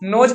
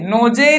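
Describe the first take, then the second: First: The word ends in a bare z sound. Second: The word ends with a z plus vowel. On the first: The speaker calls it right. "नोज पढ़ेंगे" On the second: The speaker calls it wrong. "नोजे नहीं पढ़ेंगे"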